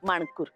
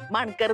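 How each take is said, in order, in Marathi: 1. दुसऱ्या अक्षरात दीर्घ 'oo' स्वर आहे. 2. दुसऱ्या अक्षरात लहान 'अ' स्वर आहे. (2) "माणकर नाही"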